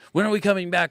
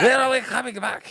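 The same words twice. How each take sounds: First: It is said in his ordinary voice. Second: It imitates the band member's voice.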